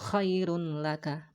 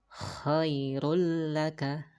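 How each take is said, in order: First: The n is pronounced clearly before the l. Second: The n merges into a doubled l sound. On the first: The speaker calls it wrong. "bukan khairun laka" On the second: The speaker calls it right. "dibacanya menjadi khairul laka"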